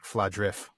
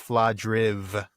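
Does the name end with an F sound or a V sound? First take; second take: F sound; V sound. First: The final consonant is a voiceless F sound. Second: The final consonant is a voiced V sound. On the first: The speaker calls it wrong. "not Fladrif" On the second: The speaker calls it right. "it is Fladriv with a voiced final consonant"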